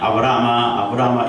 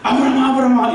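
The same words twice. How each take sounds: First: The name is called calmly, without hurry. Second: The name is called urgently, in a hurry.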